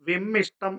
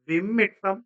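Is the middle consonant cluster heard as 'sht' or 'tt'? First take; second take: sht; tt. First: The middle cluster is pronounced 'sht'. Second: The middle cluster is pronounced 'tt'. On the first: The speaker calls it wrong. "വിമ്മിഷ്ടം എന്നാണോ പറയുന്നത്? അല്ല" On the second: The speaker calls it right. "അതിന്റെ ശരിയായ രൂപം"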